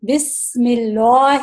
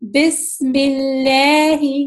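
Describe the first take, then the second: First: The L sound is thick, without spread lips. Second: The L sound is thin, with spread lips. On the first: The speaker calls it wrong. "موٹا میں پڑھ رہی، وہ غلط طریقہ ہے" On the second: The speaker calls it right. "اس کو میں پتلا کر کے پڑھوں گی"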